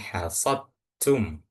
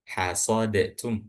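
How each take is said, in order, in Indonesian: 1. Huruf d langsung masuk ke huruf t. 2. Sebuah vokal pendek memisahkan huruf d dan t. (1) "Langsung masuk kan?"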